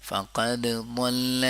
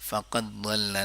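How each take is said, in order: First: فقد ضل with an echoing bounce on the dal of فقد; with qalqala. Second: فقد ضل with dal merged into the ضاد as ضل; student's merging mistake; wrong merged reading. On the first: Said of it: "دال میں قلقلہ". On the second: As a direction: run فقد ضل together as فقضّل. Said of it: "نہیں پڑھیں گے". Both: Shown as a demonstration.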